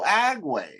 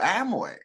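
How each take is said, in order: First: The middle consonant is a g sound. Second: The middle consonant is an m sound. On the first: The speaker calls it wrong. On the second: The speaker calls it right.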